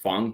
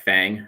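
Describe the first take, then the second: First: It is pronounced with a Mandarin Chinese vowel. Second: It is pronounced with an American English vowel. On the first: "that's actually a Chinese word. It's Feng" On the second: "Americans are gonna pronounce that as like Fang"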